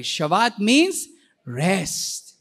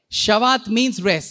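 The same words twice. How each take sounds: First: Very slow and calm, easing into rest; restful. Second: Said in the usual way. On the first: Shown as a demonstration. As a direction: Shabbat means rest drawn out slowly and calmly. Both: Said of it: "Say it that way".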